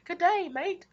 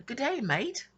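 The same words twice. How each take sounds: First: Even higher, louder hammed-up Australian "Good day, mate"; mock Aussie greeting. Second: Hammed-up Australian "Good day, mate", pitched up; playful fake Australian accent, high and bright; mock Aussie greeting. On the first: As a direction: belt out a cheeky fake Australian hello. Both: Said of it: "I told my sister that. We both laughed".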